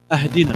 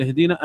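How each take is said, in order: First: أهدنا said with an added glottal a at the start; wrong hamza start. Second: اهدنا said with no glottal stop, straight into hdina; correct reading. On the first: Explaining a meaning-changing error, أهدنا said wrongly. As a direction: say أهدنا as aahdina, the faulty reading. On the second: Teacher giving the correct اهدنا to students. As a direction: say اهدنا as hdina, joined and light. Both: Shown as a demonstration. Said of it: "بدل".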